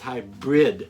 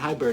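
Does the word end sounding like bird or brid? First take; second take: brid; bird. First: The word ends sounding like 'brid'. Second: The word ends sounding like 'bird'. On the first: The speaker calls it right. "it's hybrid" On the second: The speaker calls it wrong. "don't say hi bird. No, it's not hybrid"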